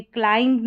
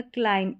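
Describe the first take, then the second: First: क्लाइंब with the final b wrongly sounded; mispronounced क्लाइंब. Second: क्लाइंब said as "klaim", ending on m; silent b. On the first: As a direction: voice the b closing क्लाइंब. (क्लाइंब के अंत में ब बोलकर ग़लत उच्चारण) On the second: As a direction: leave off the b in क्लाइंब. (क्लाइंब को 'क्लाइम' बोलें, ब silent) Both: Shown as a demonstration. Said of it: "बी का साउंड नहीं आएगा".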